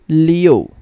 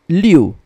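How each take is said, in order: First: It is said with an o sound inside. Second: It is said without an o sound inside. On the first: The speaker calls it right. "but rather Leo" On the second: The speaker calls it wrong. "this is not read as Liu"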